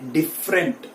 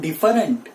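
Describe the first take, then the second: First: The vowel after the f is silent. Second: The vowel after the f is pronounced. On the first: The speaker calls it right. "ये पहला ई, वो यहां पे silent है" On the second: The speaker calls it wrong. "It is not different"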